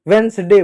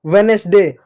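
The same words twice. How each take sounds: First: वेडनेसडे in two syllables, "vens-day"; n straight into s in वेडनेसडे; correct pronunciation. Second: वेडनेसडे with an extra e, "ve-nes-day"; three-syllable वेडनेसडे, "ve-NES-day"; wrong pronunciation. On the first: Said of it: "वेडनेसडे होता है". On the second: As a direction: sound a vowel between n and s in वेडनेसडे. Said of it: "गलत है". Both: Shown as a demonstration.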